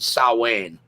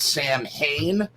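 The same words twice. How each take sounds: First: The word is said unlike its spelling. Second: The word is said just as it is spelled. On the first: The speaker calls it right. "It's actually pronounced Samhain, is how you pronounce it, even though it is written" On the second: The speaker calls it wrong. "most people pronounce it Samhain, which is incorrect"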